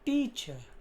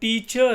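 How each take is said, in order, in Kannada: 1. ಕೊನೆಯ syllable weak ಆಗಿ, short ಆಗಿ ಹೇಳ್ತಾರೆ. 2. ಕೊನೆಯ ಸಿಲೆಬಲ್ ಸ್ಟ್ರಾಂಗ್ ಆಗಿ, ಫುಲ್ ಆಗಿ ಹೇಳ್ತಾರೆ. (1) "ಇ ಆರ್ ಮೇಲೆ ... ವೀಕ್ ಸ್ಟ್ರೆಸ್ ಕೊಡ್ತೀವಿ" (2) "ನಾಟ್ ಟೀಚರ್ ಅಲ್ಲ"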